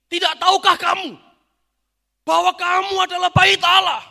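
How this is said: It is said in an angry, scolding tone.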